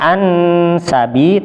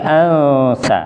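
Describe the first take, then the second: First: The n is said clearly with tongue contact. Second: The n is muffled without full tongue contact. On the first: The speaker calls it wrong. "bukan an sabi" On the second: The speaker calls it right. "tapi ansa"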